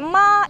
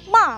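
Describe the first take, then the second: First: The pitch stays high and level. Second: The pitch falls sharply from high to low. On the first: It means mother. "ibu nada pertama" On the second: It means angry. "ma nada empat, itu artinya marah"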